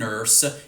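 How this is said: It is said in an American accent.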